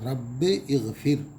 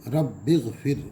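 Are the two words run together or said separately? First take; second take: separately; together. First: The words are separate, with a glottal stop between. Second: The words are joined, with no glottal stop between.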